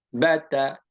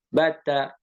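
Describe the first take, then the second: Both takes have the same delivery.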